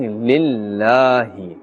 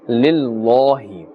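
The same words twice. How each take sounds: First: The L is said with a light, flat sound. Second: The L is said with a heavy, full sound. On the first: The speaker calls it right. "a flat sound" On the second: The speaker calls it wrong. "We are not saying lillahi. This is incorrect actually"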